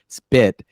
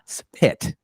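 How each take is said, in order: First: The P is unaspirated, sounding close to B. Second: The P is aspirated, with a puff of air. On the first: The speaker calls it right. "It's more spit" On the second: The speaker calls it wrong. "and not spit"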